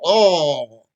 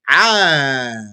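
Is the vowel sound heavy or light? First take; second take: heavy; light. First: The vowel is heavy and rounded. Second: The vowel is light and open. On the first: The speaker calls it wrong. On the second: The speaker calls it right.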